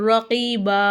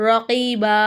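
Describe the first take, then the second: No difference in how they are said.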